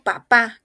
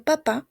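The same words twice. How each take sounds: First: "papá" said the Spanish way; Spanish-style "papá", as a wrong example; Spanish pronunciation. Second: "papá" said the French way; French-style "papá", as the model to copy; French pronunciation. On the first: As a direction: say "papá" as in Spanish, punched louder. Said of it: "como en español". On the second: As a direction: say "papá" as French papa, not as in Spanish. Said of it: "No papá, como en español". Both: Shown as a demonstration.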